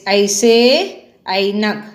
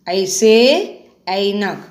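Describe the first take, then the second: Both takes have the same delivery.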